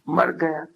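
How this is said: It is said with shocked astonishment. The death comes as a shock. The speaker calls it wrong. "तुमको आश्चर्य लगता है"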